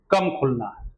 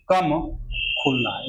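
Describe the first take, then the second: First: Said in the usual way. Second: कम set apart by a pause before खुलना है; stress with pause. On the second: Shown as a demonstration. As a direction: pause after कम, then खुलना है. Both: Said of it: "इसको याद रखना है".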